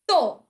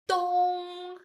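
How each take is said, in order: First: The pitch falls sharply from high to low. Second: The pitch stays high and level. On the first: "Last one" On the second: "The first tone"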